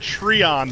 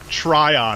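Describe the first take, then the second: First: The first syllable sounds like 'tree'. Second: The first syllable sounds like 'try'. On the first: The speaker calls it wrong. "when you say Treon" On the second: The speaker calls it right. "I believe you mean Tryon"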